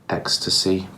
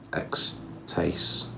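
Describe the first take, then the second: First: The name ends with an 'ee' sound. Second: The name ends with a 'taste' sound. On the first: The name refers to ecstasy. "the name would be pronounced ecstasy" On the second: The name suggests extreme taste. "sounds almost like it should say ex-taste"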